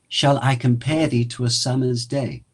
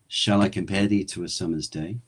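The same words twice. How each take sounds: First: It is spoken in a raised pitch and register. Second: It is spoken in a lower, natural register. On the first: "in Shakespeare voice, my voice raises in pitch and in register" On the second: "my natural speaking voice is a little lower"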